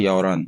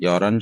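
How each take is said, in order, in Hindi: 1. इसे सहजता से बोला जाता है और h की ध्वनि मौन रहती है। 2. इसे सहजता से बोला जाता है और h की ध्वनि मौन रहती है।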